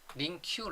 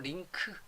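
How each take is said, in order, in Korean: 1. 이 단어는 'kyu' 소리로 끝나요. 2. 이 단어는 'keu' 소리로 끝나요. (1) "링큐라고 발음 안 하고요" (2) "링크라고 발음합니다"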